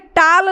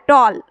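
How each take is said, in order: First: The vowel is an open, unrounded 'ah'. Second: The vowel is a rounded 'aw'. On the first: The speaker calls it wrong. "ये टाल नहीं है" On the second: The speaker calls it right. "क्या है, टॉल"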